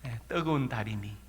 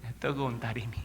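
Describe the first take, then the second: No difference in how they are said.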